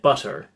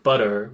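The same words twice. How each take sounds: First: The middle t is a crisp, clear t. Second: The middle t is soft, like a quick d. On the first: "we might get; that's something that you hear in those mid Atlantic accents" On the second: "rather than something like"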